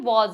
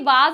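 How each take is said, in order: First: The vowel is a rounded 'aw' sound. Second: The vowel is an open 'ah' sound. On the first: The speaker calls it right. "वॉज है" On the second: The speaker calls it wrong. "ये वाज नहीं है"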